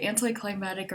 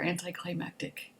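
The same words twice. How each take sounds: First: Anticlimactic said as "anti-cli-MAT-ic"; C dropped in anticlimactic. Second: Anticlimactic said as "anti-cli-MAK-tic"; C sounded in anticlimactic. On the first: Asking viewers which they say, anticlimactic without its middle k sound. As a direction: leave out the k sound before the t in anticlimactic. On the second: Asking viewers which they say, anticlimactic with its middle k sound. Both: Shown as a demonstration. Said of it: "Do you say anticlimactic or anticlimactic".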